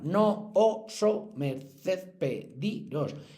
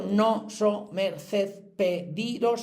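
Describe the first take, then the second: First: The two o vowels are said as separate syllables. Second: The two o vowels merge into one syllable. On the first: The line has eight syllables. The speaker calls it right. "hay que destruirla, esa sinalefa" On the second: The line has only seven syllables. The speaker calls it wrong. "si digo no so merced pediros son siete"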